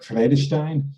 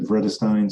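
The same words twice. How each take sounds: First: The name is said with a Dutch accent. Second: The name is said with an English accent. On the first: "if you were Dutch, you know, you might you might pronounce it more like Vredestein" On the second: "in English, I would say Vredestein"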